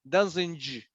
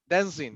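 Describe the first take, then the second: First: The word ends with an extra audible g sound. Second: The word ends without any added g sound. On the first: The speaker calls it wrong. "We don't say like j" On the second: The speaker calls it right. "Es a silent, es un sonido mudo"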